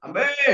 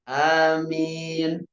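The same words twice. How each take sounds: First: The word is shouted very loudly. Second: The word is said calmly without shouting. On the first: The speaker calls it wrong. "aminnya kenceng banget itu" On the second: The speaker calls it right. "Tidak perlu sampai teriak begitu"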